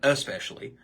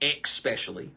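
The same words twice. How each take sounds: First: The word begins with an es sound. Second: The word begins with an ex sound. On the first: The speaker calls it right. "instead of saying especially" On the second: The speaker calls it wrong. "spell it with an E X"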